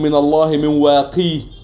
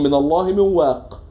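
First: The last word ends in a long ee vowel. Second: The last word ends in a plain consonant. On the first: This is the less common, less eloquent reading. The speaker calls it wrong. "ابن كثير قرأ بالياء بإثبات الياء" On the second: This is the more eloquent, majority reading. The speaker calls it right. "قراءات غير ابن كثير على ذلك"

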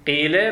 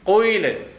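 First: The first vowel is a plain i without rounding. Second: The first vowel has a hint of lip rounding. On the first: "قيلة ما تحتاج ضم الشفتين" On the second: "شوف راح تختلف فيها إشارة إلى الضم"

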